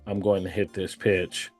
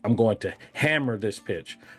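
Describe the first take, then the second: First: It is said flatly, without conviction. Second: It is said intensely, almost angrily.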